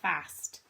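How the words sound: The vowel is a short flat A. "those of you who have a northern accent ... she'd say fast"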